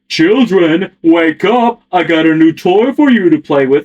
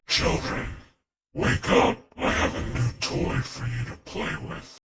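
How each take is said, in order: First: It is said in a silly, cartoony way. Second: It is said in a dark, menacing way.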